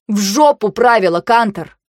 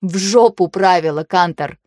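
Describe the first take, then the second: First: Loud, blunt curse at Kantor; angry outburst. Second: With relish. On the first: Vayu curses the rules at Kantor, loud. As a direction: spit the curse out at him. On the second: Vayu repeats the curse to Kantor with relish. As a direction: repeat it with clear pleasure. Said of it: "повторила я с отчётливым удовольствием". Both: A narrator's reading.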